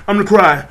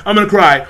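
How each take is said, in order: Both takes have the same delivery.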